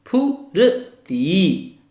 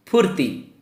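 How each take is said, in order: First: फुर्ती in very slow pieces: fu, r, tee; sounded out carefully. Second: फुर्ती joined as fur-tee, in one go; r before tee. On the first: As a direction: break फुर्ती apart with long gaps. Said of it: "तब आप ध्यान से पढ़िए". (फुर्ती को फु-र-ती तोड़कर धीरे बोलें) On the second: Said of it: "रा का उच्चारण ती से पहले". (फुर्ती में र को ती से पहले जोड़कर बोलें) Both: Shown as a demonstration.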